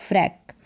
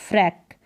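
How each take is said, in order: Both takes have the same delivery.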